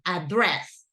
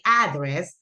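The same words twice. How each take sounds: First: The stress is on the second syllable. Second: The stress is on the first syllable. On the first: The speaker calls it right. "the correct one, address ... remember of Andres, same pronunciation" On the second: The speaker calls it wrong. "usually people say address"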